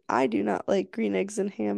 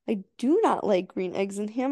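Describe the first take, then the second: First: It is read flatly, without expression. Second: It is read expressively, with lively energy.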